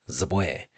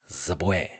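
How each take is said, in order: Both takes have the same delivery.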